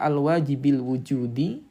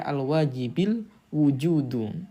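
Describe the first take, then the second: First: The last word ends with an 'i' vowel. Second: The last word ends with a 'u' vowel. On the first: The last word is the second term of a possessive construction. "Kalau wujudi jadi mudhof ilaih" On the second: The last word is the subject of the adjective. "kalau al wujudu itu asalnya menjadi fa'il"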